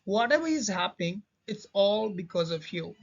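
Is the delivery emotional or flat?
emotional. It is said with strong emotion. The speaker calls it right. "मैं कर देता हूँ अभी"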